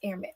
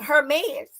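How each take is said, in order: First: The word starts with a silent H. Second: The word starts with a pronounced H sound. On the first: The speaker calls it right. "it's a silent H" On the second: The speaker calls it wrong. "I was saying"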